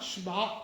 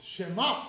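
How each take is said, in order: First: "Shema" squashed to "shma", no vowel after the sh; "Shema" with the first vowel dropped; wrong one-syllable Shema. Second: "Shema" in two syllables, sheh-MA; "Shema" with a clear vowel in both syllables; correct voiced-sheva Shema. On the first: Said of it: "so it's not Shema". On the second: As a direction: sound the short e in "Shema" after the sh. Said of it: "there's a Sheva under the Shin". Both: Shown as a demonstration.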